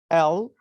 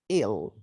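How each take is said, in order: First: The letter name is said as 'el'. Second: The letter name sounds like the word 'ill'. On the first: The speaker calls it right. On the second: The speaker calls it wrong.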